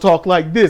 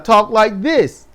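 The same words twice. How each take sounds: First: The voice is pitched deep and heavy. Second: The voice is pitched lighter and softer. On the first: This is a voice he chooses not to use. "I can make my voice as deep as I want, but I don't" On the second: This is the voice he actually uses with people. "I can lighten my voice and talk like this"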